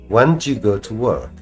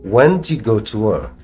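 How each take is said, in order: Both takes have the same delivery.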